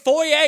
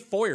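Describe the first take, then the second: First: The word is said the French way. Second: The word is said the American way. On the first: The speaker calls it right. "It's a French word" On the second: The speaker calls it wrong. "You can't say foyer"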